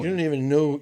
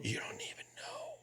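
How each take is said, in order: First: Said in the usual way. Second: Much higher and softer, slower; squeaky high echo. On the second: Shown as a demonstration. Repeating his line to friends, squeaky high and slow. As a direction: drop the volume and squeak it up high, drawn out.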